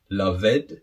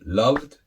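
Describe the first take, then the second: First: The -ed ending is said as a separate syllable. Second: The -ed ending is a short final d sound. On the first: The speaker calls it wrong. "No, of course not. It doesn't sound good" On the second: The speaker calls it right. "the second one loved"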